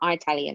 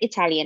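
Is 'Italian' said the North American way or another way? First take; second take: North American; other. First: Said the North American way. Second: Said in a non-North American way. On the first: The speaker calls it wrong. "not Italian, like the rest of North America" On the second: The speaker calls it right. "At least she said Italian"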